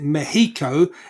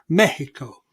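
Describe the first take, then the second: First: The stress is on the second syllable. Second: The stress is on the first syllable. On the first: "they would pronounce it Mexico" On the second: "they've got that little accent over the e to tell you that it's Mexico"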